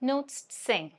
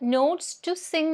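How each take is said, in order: First: The word 'to' is reduced to a weak sound. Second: The word 'to' is said in full. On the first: The speaker calls it right. "ട് എന്ന് പറഞ്ഞ sound മാത്രം കേൾക്കുള്ളൂ" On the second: The speaker calls it wrong. "എന്നല്ല പറയാ"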